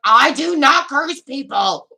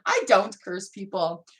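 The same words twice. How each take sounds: First: Loud, slow, emphatic announcement; emphatic declaration. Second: Said in the usual way. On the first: Acted. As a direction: proclaim it loudly, each word drawn out. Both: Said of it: "That's my voice today".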